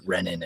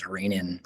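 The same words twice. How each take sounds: First: Short e opening "Renin"; short-e pronunciation. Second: Long ee opening "Renin"; long-e pronunciation. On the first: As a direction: say "Renin" as REN-in. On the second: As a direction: say "Renin" as REE-nin. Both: Shown as a demonstration. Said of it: "being pronounced as".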